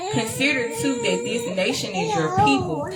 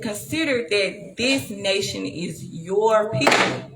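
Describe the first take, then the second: First: Said in the usual way. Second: Slower, leaning on "this nation is your people"; stress on this nation. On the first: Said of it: "I wanted them to hear the emphasis". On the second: Shown as a demonstration. Reading to viewers, slowing to make the point stick. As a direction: drag out "this" and "your" so they land. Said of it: "You see, he said".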